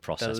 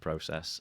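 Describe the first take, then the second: First: It is said with an American pronunciation. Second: It is said with a British pronunciation. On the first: The speaker is adopting the local way of speaking. "I said the word process before" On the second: This is the speaker's original way of speaking. "rather than process"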